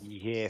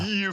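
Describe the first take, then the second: First: It is said in his ordinary speaking voice. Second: It is said in a put-on character voice. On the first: The speaker calls it wrong. "That's not your character voice, mate" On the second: The speaker calls it right. "Very good"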